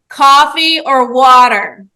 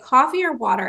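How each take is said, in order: First: It is said louder, with more force. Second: It is said at a normal, calm volume.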